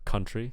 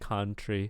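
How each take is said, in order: First: The first vowel sounds like 'uh'. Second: The first vowel sounds like 'ah'. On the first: The speaker calls it right. "instead of country" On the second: The speaker calls it wrong. "I'm hearing ah ah instead of uh uh"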